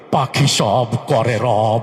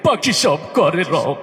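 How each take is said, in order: First: It is recited in a steady, non-crying voice. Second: It is recited in a weeping, crying voice. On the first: "উনি ওনার মতো করে আবৃত্তি করলো" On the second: "কান্তি কান্তি কইতেছে"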